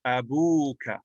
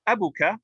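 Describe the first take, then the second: First: Abuka with a long, drawn-out u; long waw vowel. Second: Abuka with a short, quick u; short-vowel form. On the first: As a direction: stretch the middle of Abuka into a long oo. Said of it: "it becomes a waw". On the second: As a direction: say abuka without lengthening the u. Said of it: "what would a normal noun be". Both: Shown as a demonstration.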